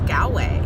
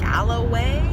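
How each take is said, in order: First: The name is said with two syllables. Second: The name is said with three syllables. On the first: The speaker calls it right. "there's no extra letters in it. It's Galway" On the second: The speaker calls it wrong. "people pronounce the name wrong, call it Galloway Bay"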